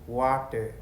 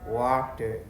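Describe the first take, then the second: The two takes are said the same way.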